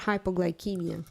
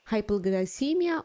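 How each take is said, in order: First: The c is said like a k. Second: The c is said like an s. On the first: "with a hard C" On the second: "with soft C"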